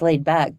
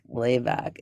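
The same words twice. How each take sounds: First: The voice is smooth and clear. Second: The voice is low and creaky. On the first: "if I'm just laid back" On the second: "that's all vocal fry is"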